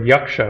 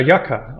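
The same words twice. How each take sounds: First: "yaksha" with sh after the k; "yaksha", adding sh before the final a; Sanskrit pronunciation. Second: "yaka" with a plain k, no sh; "yaka", k straight into the final a; alternative pronunciation. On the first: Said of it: "That's how they say it in". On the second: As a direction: say "yaka", leaving out the Sanskrit sh. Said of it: "you can also say the word yaksha". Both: Shown as a demonstration.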